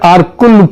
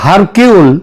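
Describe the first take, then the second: First: The name begins with a vowel sound. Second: The name begins with an H sound. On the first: The speaker calls it right. "Actually উচ্চারণটা হচ্ছে আরকুল Poirot" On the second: The speaker calls it wrong. "ওই উচ্চারণে এটা হয় হারকিউল"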